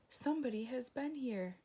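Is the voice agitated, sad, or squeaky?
squeaky. It is said in a very squeaky voice.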